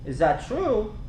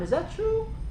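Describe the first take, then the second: First: The question sounds accusing and impatient. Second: The question sounds open and genuinely curious. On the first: The speaker is confronting the listener. The speaker calls it wrong. "How likely that's going to work out?" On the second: The speaker sincerely wants to know the answer. The speaker calls it right. "you want to come from a place you're being curious"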